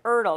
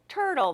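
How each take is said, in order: First: The word starts without a T sound. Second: The word starts with a clear T sound. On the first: The speaker calls it wrong. "They're like, Erdle" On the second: The speaker calls it right. "no, turtle"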